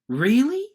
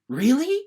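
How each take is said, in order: First: It sounds excited and thrilled. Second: The same.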